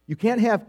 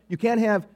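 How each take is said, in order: Both takes have the same delivery.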